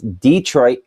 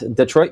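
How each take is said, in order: First: The stress is on the first syllable. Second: The stress is on the second syllable. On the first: This is the town in Alabama. "It's Detroit, Alabama ... heavy emphasis on the first first syllable" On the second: This is the city in Michigan. "It's Detroit, Michigan"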